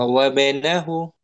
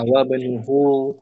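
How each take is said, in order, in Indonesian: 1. Vokal setelah n adalah a. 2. Vokal setelah n adalah u. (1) "Kenapa di fathah?"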